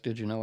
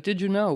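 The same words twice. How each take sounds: First: Lower, softer snide "Did you know?"; condescending little "Did you know?"; snarky. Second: Bright, higher, louder "Did you know?"; cheerful, genuinely curious "Did you know?"; friendly. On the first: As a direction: say "Did you know?" with a sneer, dropping low and quiet. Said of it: "in a snarky way". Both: Shown as a demonstration.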